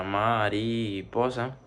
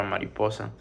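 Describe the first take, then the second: First: "mariposa" slowly, syllable by syllable; dividido em sílabas. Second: Said in the usual way. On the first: Shown as a demonstration. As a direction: stretch "mariposa" into ma, ri, po, sa. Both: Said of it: "Se dividiría de manera".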